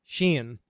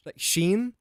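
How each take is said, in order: First: "Shein" said like the Irish name Shane, falling; "Shein" clipped and falling like the name Shane; Irish-sounding Shane. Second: Said in the usual way. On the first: Shown as a demonstration. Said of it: "say Shane in an Irish accent". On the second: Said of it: "sounds like I'm trying to say Shane".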